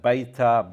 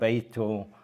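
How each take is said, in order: First: It is said in the listeners' dialect. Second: It is said in the Western dialect.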